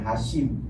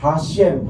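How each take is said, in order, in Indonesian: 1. Suku kata kedua memiliki vokal 'ee'. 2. Suku kata kedua memiliki vokal 'eh'. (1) "bukan Hashim" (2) "Ya, Hashem"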